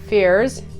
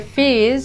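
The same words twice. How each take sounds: First: It is said in an American accent. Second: It is said in an Australian accent.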